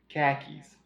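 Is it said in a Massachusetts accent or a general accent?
Massachusetts. It is said in a Massachusetts accent, without the r.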